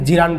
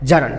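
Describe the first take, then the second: First: The first vowel sounds like 'ee'. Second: The first vowel sounds like 'a'. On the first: The speaker calls it wrong. "অনেকে কিন্তু জিরান বলে" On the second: The speaker calls it right. "আসল উচ্চারণ হবে জারান"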